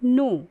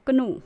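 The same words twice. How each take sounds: First: "नो" starting straight on N; one clear syllable "नो", no K; silent K. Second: "कनो" with K and a short vowel before N; two syllables ka-NO for "कनो"; K wrongly sounded. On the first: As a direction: drop the K in "नो". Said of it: "हम इसे पढ़ेंगे नो". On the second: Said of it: "इसका wrong pronunciation हो जाएगा". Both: Shown as a demonstration.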